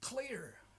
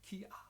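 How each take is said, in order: First: The L sound is clearly pronounced. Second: The L sound is left out. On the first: The speaker calls it right. "push the tongue against the top teeth" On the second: The speaker calls it wrong.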